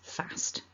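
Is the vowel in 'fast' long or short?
short. The vowel is short. "I say the second version"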